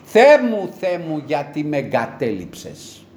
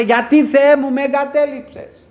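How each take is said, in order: First: A preacher retelling the cry, fading from shout to hush. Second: Much higher and louder, a desperate shout; a preacher voicing Jesus' cry of abandonment; anguished cry. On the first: Retold or imitated. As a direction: shout the opening, then let the cry sink and slow. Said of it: "κράζει επάνω στο σταυρό και φωνάζει". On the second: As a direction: cry out to God as if forsaken. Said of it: "Φώναζε".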